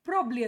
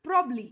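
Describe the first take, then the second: First: One middle syllable is dropped, sounding like probly. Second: One middle syllable is dropped, sounding like probly.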